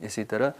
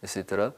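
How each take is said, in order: Both takes have the same delivery.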